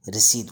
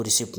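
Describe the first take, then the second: First: रिसीट with silent P, "ri-seet"; correct pronunciation. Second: रिसिप्ट with the P sounded; wrong pronunciation. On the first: Teacher naming the slip you get after purchase, correct pronunciation. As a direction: say रिसीट with a long EE and no P. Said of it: "उसको रिसीट बोलते हैं". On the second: Teacher telling learners not to read it so, wrong pronunciation. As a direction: say रिसिप्ट as "ri-sipt". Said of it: "नहीं पढ़ेंगे". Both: Shown as a demonstration.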